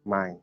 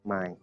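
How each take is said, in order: First: The word is said with a low tone. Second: The same.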